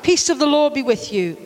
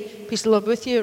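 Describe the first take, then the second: First: It is said slowly and warmly. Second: It is said quickly and carelessly.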